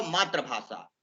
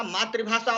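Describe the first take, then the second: First: मातृभाषा said "maatra-bhasha", with "tra" for "tri"; mispronounced मातृभाषा. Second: मातृभाषा said "maatri-bhasha", with an i after the r; correct मातृभाषा. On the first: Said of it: "वह गलत है". (मातृभाषा को "मात्र-भाषा" बोलें) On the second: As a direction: say मातृभाषा with "tri" in the middle. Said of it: "वहाँ शब्द मातृभाषा है". (मातृभाषा को "मात्रि-भाषा" जैसा बोलें) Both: Shown as a demonstration.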